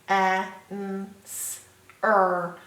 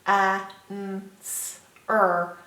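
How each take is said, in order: Both takes have the same delivery.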